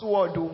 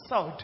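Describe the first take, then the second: First: The w is sounded at the start. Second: The w is silent at the start. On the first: The speaker calls it wrong. "that word is not sword" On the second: The speaker calls it right. "it is sword. You don't pronounce the W"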